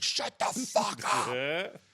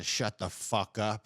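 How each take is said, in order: First: High, drawn-out mock yell; mock robber yell. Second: Said in the usual way. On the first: Robber telling the kids off, mock yell. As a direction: stretch it out in a strained, hammed-up robber voice. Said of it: "the one robber is, like". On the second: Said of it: "telling the kids to".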